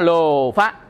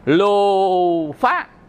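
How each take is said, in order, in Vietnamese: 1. Từ này được phát âm trôi chảy, không cường điệu. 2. Từ này được phát âm với âm kéo dài mạnh mẽ, cường điệu. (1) "Ta nói lô phá" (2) "mình làm cho nó thô vậy thôi, chứ ta không đọc dữ vậy"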